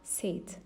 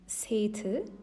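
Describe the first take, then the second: First: The final syllable has no clear vowel. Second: The final syllable ends with a clear i vowel. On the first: The speaker calls it right. "we say" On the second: The speaker calls it wrong. "We don't say"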